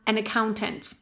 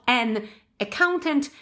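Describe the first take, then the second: First: The two words are linked together. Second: The two words are said separately. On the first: The speaker calls it right. "we can actually link it in pronunciation" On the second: The speaker calls it wrong. "not an accountant"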